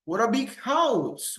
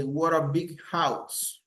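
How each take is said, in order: First: High, swooping exclamation; exaggerated admiration. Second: Said in the usual way. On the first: Shown as a demonstration. Teacher models admiring phrases for students, exaggerated amazement. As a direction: marvel hugely, pitch soaring then falling on house. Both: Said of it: "I am exaggerating something".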